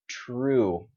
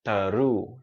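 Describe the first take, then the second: First: "true" with T and R blended, like southern Vietnamese tr; correct TR blend. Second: "taru" as a wrong "true", vowel slipped between T and R; mistaken extra vowel. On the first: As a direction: glide straight from T into R in "true". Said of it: "when you say tr". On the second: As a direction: break the cluster wrongly into "taru". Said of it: "you might say something like". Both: Shown as a demonstration.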